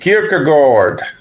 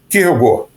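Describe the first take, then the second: First: It is said with an American English accent. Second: It is said with a native Danish pronunciation. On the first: "nos Estados Unidos chamam de" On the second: "o nome mesmo dele em dinamarquês é"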